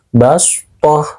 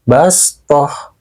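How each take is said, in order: First: The s sound is emphatic and heavy. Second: The s sound is plain and light. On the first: "sin kecil di atas shod" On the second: "maka cara bacanya harus pakai sin"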